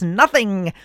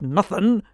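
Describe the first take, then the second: First: The word ends with a clear g sound. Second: The word ends without the g sound. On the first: The speaker calls it right. "you could at least put a G at the end of the word. It's nothing" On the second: The speaker calls it wrong. "not nothing"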